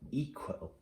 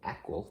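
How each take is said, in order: First: The first vowel is a long 'ee' sound. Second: The first vowel is a short 'eh' sound. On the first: The speaker calls it right. "Try it with an E" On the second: The speaker calls it wrong. "that's not a word"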